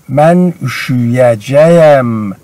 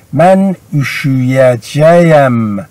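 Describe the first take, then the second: First: Said in the usual way. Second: Slow, deliberate model form; careful slow demonstration; slow model reading. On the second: Shown as a demonstration. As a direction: say each syllable slowly for the class. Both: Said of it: "repeated example".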